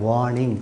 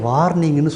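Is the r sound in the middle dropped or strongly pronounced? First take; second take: dropped; strongly pronounced. First: The middle r is left silent. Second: The middle r is pronounced strongly. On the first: The speaker calls it right. "வா நிங்" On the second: The speaker calls it wrong. "Don't say"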